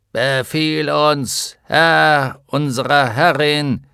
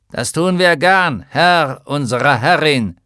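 First: Slow, metallic armored-giant voice; tinny giant voice. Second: Loud, metallic armored-giant voice; tinny giant voice. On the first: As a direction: speak like a hollow iron giant. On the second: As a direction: boom it out like a hollow iron giant. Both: Acted. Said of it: "mit blecherner Stimme".

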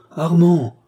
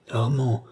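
First: Armand cried out high and loud in alarm; captain crying out to his freezing colonel, alarmed. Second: Said in the usual way. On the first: Acted. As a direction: call his name in sudden fear, high and loud. Captain calls the dying colonel.

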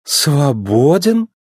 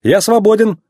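First: Very slow СВОБОДЕН, rising at the end; surprised echo question. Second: СВОБОДЕН pitched high, then falling; confident statement. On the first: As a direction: draw out СВОБОДЕН as a puzzled question. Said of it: "удивлённо переспросила она". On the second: McQueen declares himself free. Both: A narrator's reading.

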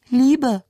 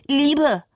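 First: "Liebe." jumps up high, a tight raised tone; higher pitch. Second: "Liebe." pitched very high and shrill; mocking imitation of her strained "Liebe.". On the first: Retold or imitated. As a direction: say "Liebe." clearly higher than the rest, as if the throat tightens. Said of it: "Eine halbe Oktave höher". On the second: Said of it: "Ein schriller Ton".

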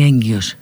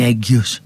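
First: «έγκυος» με ν πριν από το g; πρόφερε το «έγκυος» σαν «ένγκιος»; έρρινο γκ. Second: «έγκυος» σαν «έgιος», χωρίς ν; φάε το έρρινο στο «έγκυος»; λάθος χωρίς έρρινο. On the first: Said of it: "ας είναι με δύο γάμα". («έγκυος» με καθαρό έρρινο ήχο) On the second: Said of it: "Δεν λέμε είναι έγκυος". («έγκυος» με σκέτο g) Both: Shown as a demonstration.

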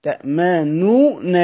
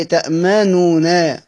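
First: تأمنون said slowly, ending on a falling closed nun; slow repeated citation; slow demo. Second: تأمنون spelled out slowly with full final nun; slow citation form; slow demo. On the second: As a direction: say تأمنون slowly, every syllable clear. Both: Shown as a demonstration. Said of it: "هي أصلها إيه؟".

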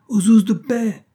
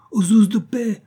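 First: High, loud cry, "ouzes" falling at the end; repeated cry for help. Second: High, loud cry for the police; old shoemaker crying out. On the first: Shoemaker keeps yelling for the police, falling cry. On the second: Old shoemaker yells from his shop for the police, high cry. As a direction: shriek "Aux ouzes de paix!" with "ouzes" high and loud. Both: A narrator's reading. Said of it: "Un vieux cordonnier juif criait".

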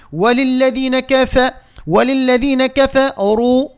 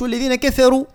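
First: Higher, slow وللذين كفروا with light "ke-fe" then long "ruu"; careful thin vowels in كفروا, each one measured; syllable-by-syllable recitation. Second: والذين كفروا quick and unchanted, every vowel thinned to "keferu"; higher, spoken كفروا with a thinned ra; over-thinned wrong take. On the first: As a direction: build up كفروا slowly in chanted pieces. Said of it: "نقطعها مقاطع، نقول". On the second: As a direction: rattle off كفروا with all letters light, even the ra. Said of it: "باش ما نقولوش". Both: Shown as a demonstration.

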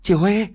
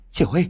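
First: High, loud scream of the name, chị stressed; shouting a name. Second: Calling out. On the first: Sister screams on finding her sister dead. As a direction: cry out chị Huê in shock. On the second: Sister calls to the lifeless body, crying out. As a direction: call to her to wake up. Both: A narrator's reading. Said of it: "Xuyến gào lên".

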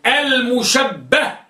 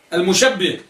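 First: المشبه as al-mushabbah, fatha on the doubled ba, drawn out very slowly. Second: المشبه as al-mushabbih, kasra under the doubled ba. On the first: Teacher to class, slowly spelling out المشبه as al-mushabbah with fatha. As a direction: stretch المشبه slowly, ending -bbah with a on the doubled b. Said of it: "بفتح الباء المشددة". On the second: Teacher to class, showing المشبه as al-mushabbih with kasra. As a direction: say المشبه ending -bbih, with i after the doubled b. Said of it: "بكسر الباء المشددة". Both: Shown as a demonstration.

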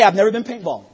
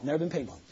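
First: Said in the usual way. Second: Quiet repeat. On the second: Real, not acted. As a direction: drop it to a much softer aside. Repeats the line softly.

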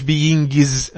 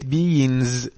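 First: BEINGS said wrongly as "being-giz"; beings with hard g. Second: BEINGS drawn out slowly, ng held in the nose; beings with nasal ng. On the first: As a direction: pop a hard g in "beings", adding a syllable. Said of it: "ما قلتش، ما قلتش beings". (beings بجيم منطوقة غلط) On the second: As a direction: say "beings" softly with a long nasal ng, no hard g. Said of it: "بقى كله بقى غنة". (beings بغنة ممدودة من غير جيم) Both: Shown as a demonstration.

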